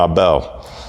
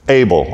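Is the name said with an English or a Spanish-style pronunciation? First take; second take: Spanish; English. First: The name is said with a Spanish-style pronunciation. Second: The name is said with an English pronunciation.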